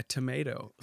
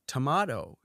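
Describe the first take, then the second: First: "tomato" with American "ay" vowel and soft d; full American pronunciation. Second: "Tomato" with British "ah" vowel, American soft d; hybrid American accent. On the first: Shown as a demonstration. Showing what she doesn't say, "tomato" as "tuh-MAY-doh". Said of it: "She don't call it a tomato". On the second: Retold or imitated. Imitating her half-American accent, "Tomato" as "tuh-MAH-doh". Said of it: "she says it in an American accent".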